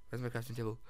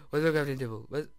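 First: Said in the usual way. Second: Gasped, fast and louder question; sudden alarm. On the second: Real, not acted. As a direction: rush it out in a sudden panic. Gasps, repeats faster.

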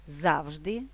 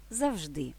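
First: ЗАвжди, stress at the start, rising end; stress on first syllable. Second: ЗавЖДИ, stress at the end, falling tune; stress on last syllable. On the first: (наголос на перший склад: ЗАвжди) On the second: (наголос на останній склад: завЖДИ) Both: Shown as a demonstration. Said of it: "подвійним наголосом".

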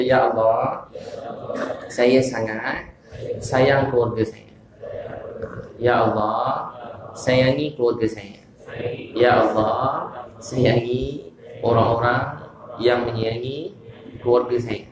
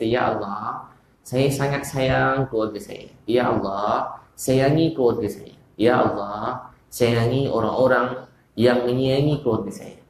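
First: Very slow, phrase by phrase, for the crowd to repeat; call-and-response prayer for the congregation; leading a recitation. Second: Slow, tender quoted supplication; slow prayer. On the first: Shown as a demonstration. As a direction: spell out the prayer slowly with long pauses. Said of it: "Semua kata". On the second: Retold or imitated. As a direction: pray it gently and slowly. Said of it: "Sambil Nabi kata".

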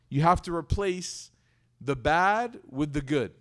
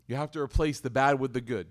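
First: Slow, weighing "replace" and "bad"; slow emphatic. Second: Said in the usual way. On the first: Shown as a demonstration. Preacher slowly stressing "bad" to the congregation. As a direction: spell it out word by word.

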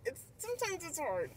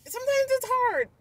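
First: Sometimes it's hard said softer and falling; softer second take. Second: Sometimes it's hard said higher and louder, sometimes stressed; higher first take. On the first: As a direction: let it drop, softer, almost to yourself. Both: Real, not acted. Repeats the phrase twice.

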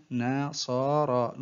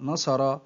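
First: Very slow, each syllable drawn out separately; broken into syllables. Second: Said in the usual way. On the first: Shown as a demonstration. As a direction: sound out the word syllable by syllable. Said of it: "تقطع الكلمة إلى حروف". (تقطيع الكلمة ببطء شديد مقطعًا مقطعًا) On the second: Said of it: "تقطع الكلمة".

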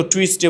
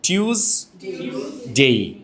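First: টুইসডে with "twis" at the start; টুইসডে with a w glide, in passing; wrong local pronunciation. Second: টিউসডে very slow, "TYOOZ ... dey"; টিউসডে with a y glide, no w; corrected British pronunciation. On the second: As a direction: split টিউসডে into two drawn-out syllables. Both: Shown as a demonstration. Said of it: "আমরা তো টুইসডে বলি না".

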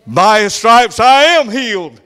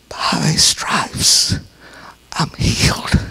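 First: Loud, higher, slow proclamation; triumphant declaration. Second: Faint, slow, breathy whisper; weak-bodied voice. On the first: The healed mother proclaiming victory, loud and slow. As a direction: finally declare it with full faith. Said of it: "She's speaking his executive order". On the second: A frail sick mother clinging to scripture, whispered. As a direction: barely get it out, frail but believing. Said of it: "with her little weak-bodied voice". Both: Retold or imitated.

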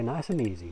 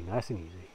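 First: Said in the usual way. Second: Softer, lower, soothing self-talk; soft and calm. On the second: Shown as a demonstration. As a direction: ease it out gently to yourself.

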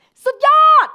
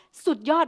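First: Slow, much higher, much louder full-power shout of สุดยอด. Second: Said in the usual way. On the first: Shown as a demonstration. Teacher demonstrating the cheer to the class, loud drawn-out shout. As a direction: belt out สุดยอด at the top of your voice. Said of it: "แบบเสียงดังเลยแบบ". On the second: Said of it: "แล้วเราจะพูดว่า".

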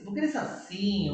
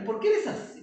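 First: Said in the usual way. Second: Laughing while asking, pitched higher; a real laugh of disbelief at the student; laughing exasperation. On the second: Real, not acted. Teacher laughing at a student who says it doesn't work.

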